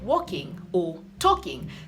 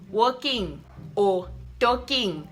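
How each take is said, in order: First: The -ing endings are said plainly and lightly. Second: The -ing endings are said with strong stress. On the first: "instead of saying something like walking or talking" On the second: "they'll say they're going to pronounce or stress on their ing"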